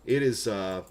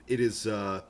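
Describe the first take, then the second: No difference in how they are said.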